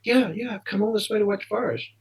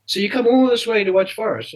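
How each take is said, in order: First: High-pitched, eager retold reply; keen, higher-voiced answer without pushing volume; eager confirmation. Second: Higher-pitched imitation of an amazed shop man; retold incredulous question. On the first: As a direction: play back a keen young fan confirming it. Eager fan answering the amazed man. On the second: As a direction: voice someone astonished at a fan's long journey. Club shop man's amazed question.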